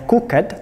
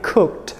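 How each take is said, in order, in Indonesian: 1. Akhiran itu diucapkan sebagai suku kata terpisah. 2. Akhiran itu konsonan saja, tanpa suku kata tambahan. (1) "dia tidak bacanya cooked" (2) "tapi cooked, langsung tembak ke suara d-nya"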